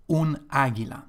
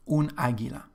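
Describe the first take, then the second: No difference in how they are said.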